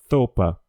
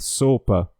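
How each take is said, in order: First: The first sound is made with tongue between teeth. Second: The first sound is a normal hissing s.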